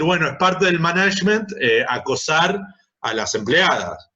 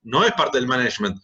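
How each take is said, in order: First: Mock boss. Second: Said in the usual way. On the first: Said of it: "se educa a los jefes a decir".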